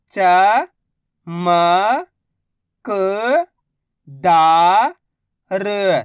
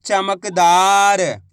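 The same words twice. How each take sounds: First: Very slow, each syllable drawn out. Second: Said in the usual way. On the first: Shown as a demonstration. Teacher sounding out a word for pupils, slow syllables. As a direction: spell the word out slowly for a child. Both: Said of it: "मैं किस तरीके से".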